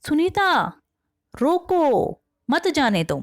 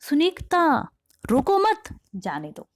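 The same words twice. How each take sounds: First: The pause falls right after the word roko. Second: The pause falls right after the word mat. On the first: Stop it and do not let it go. "मतलब सुनीता सुनीता रोक लो किसी चीज को, ... और उसे जाने मत दो" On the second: Do not stop it; let it go. "इसका क्या मतलब निकला कि सुनीता रोको मत, रोकना नहीं है, जाने दो उसे"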